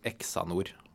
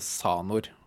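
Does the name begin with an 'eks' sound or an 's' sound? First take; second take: eks sound; s sound. First: The name begins with an eks sound. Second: The name begins with a plain s sound. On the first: "veldig mange kaller dette her Exanor" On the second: "Jeg mener vi går for S, eller en Z-lyd"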